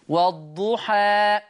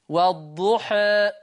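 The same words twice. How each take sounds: First: The final vowel is an open a sound. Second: The final vowel is between a and e. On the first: "فتح" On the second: "إمالة تقليل"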